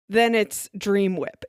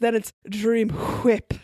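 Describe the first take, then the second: First: It is said in a plain everyday voice. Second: It is said in a fancy voice with breathy H's. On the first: The topping is an ordinary product. "If you buy Jello brand pudding mix" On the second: The topping feels extra fancy. "You just have to add a bunch of H's to the beginning"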